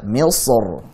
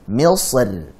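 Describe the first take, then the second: First: The final r is pronounced heavy and full. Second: The final r is pronounced light and thin. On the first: "baca dengan tebal" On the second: "Kalau tipis"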